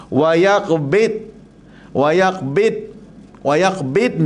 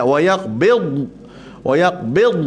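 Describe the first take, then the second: First: Yaqbid with the dad said like a hard dal; wrong dad like dal. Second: Yaqbid with a full dad, air held in the mouth; correct dad. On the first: Ustaz demos the common mistake, dad like dal. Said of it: "saya bagi yang cenderung pada dal". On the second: Ustaz shows the class the right dad. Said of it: "dia macam bunyi dal". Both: Shown as a demonstration.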